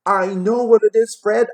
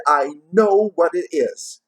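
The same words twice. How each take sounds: First: Much higher, louder, gleeful shout; gleeful cry. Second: Slow, higher, drawn-out gleeful repeat; slower gleeful cry. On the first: Plump sister calls out to Fred, gleeful high cry. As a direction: burst out with the answer. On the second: Plump sister repeats her guess to Fred, slow gleeful cry. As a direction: savour the answer, stretching it out. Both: A narrator's reading. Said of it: "she cried out with glee".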